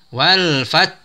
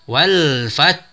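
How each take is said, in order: The two takes are said the same way.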